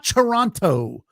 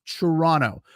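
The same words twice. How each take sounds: First: Toronto with both Ts sounded, "tor-ON-toe"; slowly overpronounce the second T in Toronto; outsider pronunciation. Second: Toronto as "tuh-RAH-no", second T dropped; local pronunciation. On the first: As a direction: say Toronto with a crisp final "toe". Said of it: "It's not Toronto". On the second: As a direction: say Toronto with only the first T. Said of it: "It's Toronto". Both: Shown as a demonstration.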